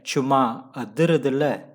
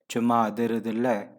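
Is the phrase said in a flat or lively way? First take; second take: lively; flat. First: It is said with lively, energetic intonation. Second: It is said flatly, without liveliness. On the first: The speaker calls it right. "You have to say" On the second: The speaker calls it wrong. "you cannot say chuma adhirudilla. No, it's meaningless"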